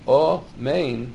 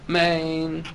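First: The first vowel is a full, clear vowel. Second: The first vowel is reduced to a short murmur. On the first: The speaker calls it right. "with a kometz under the aleph" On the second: The speaker calls it wrong. "as if the aleph had a shvo"

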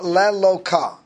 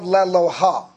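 First: The word is said with a k sound. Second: The word is said with an h sound. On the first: The word is treated as referring to the true God. The speaker calls it wrong. "I'm sorry. Let me pronounce it better" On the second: The word refers to a lowercase deity. The speaker calls it right. "Let me pronounce it better"

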